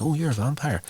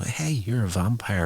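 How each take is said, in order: First: Blurted out. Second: A slightly raised voice as the thought dawns; dawning realisation. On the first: Cordelia blurting to Russell that he's a vampire, high surprised blurt. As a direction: blurt it before you can stop yourself. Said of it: "She blurts it out". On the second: Cordelia realising her host is a vampire, mild surprise. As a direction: let it dawn on her mid-sentence. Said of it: "Then it dawns on her that". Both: Retold or imitated.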